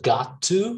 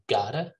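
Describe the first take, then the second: First: Both words are said fully and separately. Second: The words blend into one reduced word. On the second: "we just say gotta"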